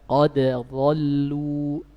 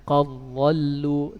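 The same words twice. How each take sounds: First: The d is kept separate before the next sound. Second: The d merges into the following sound. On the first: This is how the Hafs tradition recites it. "dalam riwayat Hafs dan Asim ... tidak diidgham" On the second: This is how other reading traditions recite it. "qiraat-qiraat yang lainnya, mereka membacanya"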